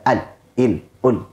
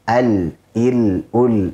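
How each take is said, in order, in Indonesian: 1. Bunyi l dipotong pendek secara tiba-tiba. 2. Bunyi l ditahan dan sedikit mengalir. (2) "Ada aliran sedikit"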